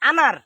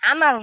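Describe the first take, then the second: First: The word ends with an R sound. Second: The word ends with an L sound. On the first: The speaker calls it right. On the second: The speaker calls it wrong. "আনাল না তো"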